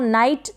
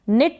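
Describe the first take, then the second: First: The vowel sounds like 'eye'. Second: The vowel is a short 'i'. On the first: The speaker calls it wrong. "इसको नाइट ना पढ़ें" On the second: The speaker calls it right. "निट पढ़ेंगे"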